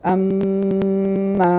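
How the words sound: The nose is open and the m resonates. The speaker calls it right. "ഞാൻ മൂക്കൊന്നും പൊത്താതെ"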